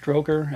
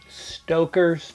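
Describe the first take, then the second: First: The name is said with an added r sound. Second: The name is said without an r sound. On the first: The speaker calls it wrong. "I always say it incorrectly on purpose" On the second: The speaker calls it right. "I'll say it correctly here"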